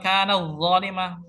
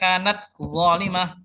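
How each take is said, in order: First: The t sound is merged into the following sound. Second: The t sound is pronounced clearly and separately. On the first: The speaker calls it wrong. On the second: The speaker calls it right. "tapi dibaca ... dibaca idhar"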